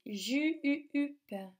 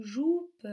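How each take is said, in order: First: "ju-u-up" with the French U stretched and pulsed; careful model "ju-u-up", U rather than OU; correct vowel demo. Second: "joupe" with OU in place of the U of "jupe"; the mistaken word "joupe", rhyming with "soupe"; wrong vowel demo. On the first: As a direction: say "ju-u-up" higher, holding the U as in "tu". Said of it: "c'est ju-u-up". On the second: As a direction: say "joupe" with a clear OU. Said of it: "ce n'est pas le mot". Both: Shown as a demonstration.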